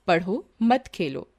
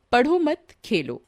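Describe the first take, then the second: First: "पढ़ो", pause, then "मत खेलो" together; slow, with a break before मत; pause after पढ़ो. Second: "पढ़ो मत" run together, pause, then "खेलो"; group पढ़ो with मत, then pause before खेलो; pause after मत. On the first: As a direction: set पढ़ो apart, then stress मत in "मत खेलो". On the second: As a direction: break after मत, setting Khelo apart. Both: Shown as a demonstration. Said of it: "परंतु उनका स्थान बदल जाने पर".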